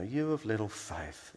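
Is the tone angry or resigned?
resigned. It is said in a weary, resigned tone.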